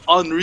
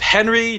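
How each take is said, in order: First: The name is said the French way. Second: The name is said the plain English way. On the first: "give it some flair and go Henri? You know, make it a little French-Canadian" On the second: "do we pronounce it"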